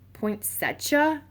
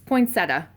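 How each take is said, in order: First: The middle has a 'ch' sound. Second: The middle has a plain 't' sound. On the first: The speaker calls it wrong. "That's not how it's pronounced" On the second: The speaker calls it right. "but it's not a cha sound"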